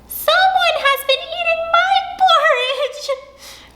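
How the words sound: It is said in a wee small voice.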